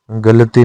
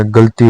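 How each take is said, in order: First: गलती in three syllables; wrong form. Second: गलती in two syllables; correct form. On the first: Teacher showing learners the mistake, गलती with extra a. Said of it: "नहीं होता". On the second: Teacher giving the correction, गलती as gal-ti. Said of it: "होता है". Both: Shown as a demonstration.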